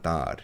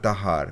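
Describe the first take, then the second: First: The word is one short syllable without 'ha'. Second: The word has an extra middle 'ha' syllable. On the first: This is the everyday spoken form. "মানে তার" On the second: This is the formal literary form. "সাধু ভাষা প্রোনাউন্সে extra হা বা হ ঢুকিয়ে দেয়"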